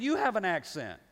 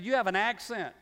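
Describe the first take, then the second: First: You punched hard, turned back on her; stress on you. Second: Said in the usual way. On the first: Retold or imitated. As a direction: fire You have an accent straight back at her. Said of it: "I said". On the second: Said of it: "She said".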